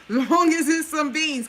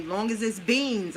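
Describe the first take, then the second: First: Higher, louder, slow laughing repeat; laughing emphasis. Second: Said in the usual way. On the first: Real, not acted. Repeating her beans advice to viewers, laughing and louder. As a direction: laugh it out as you push the point.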